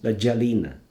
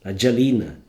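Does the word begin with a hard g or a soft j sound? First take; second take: soft j; soft j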